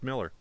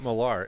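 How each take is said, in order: First: The last syllable has a reduced 'er' vowel. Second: The last syllable has a full 'ar' vowel. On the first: The speaker calls it right. "It's actually pronounced Miller" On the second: The speaker calls it wrong. "actually it's not Millar"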